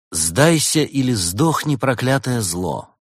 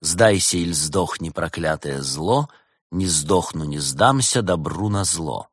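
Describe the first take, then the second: First: Slow, raised, dramatic declamation; declaimed threat. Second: Slow, measured verse at moderate pitch; rhythmic recital. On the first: Detective reads out the inscription on the arrow, declaiming. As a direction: proclaim it slowly and grandly. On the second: Detective tries the quote as a rhyme, recited slowly. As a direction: recite it as a couplet, drawn out. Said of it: "А если так?". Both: Acted.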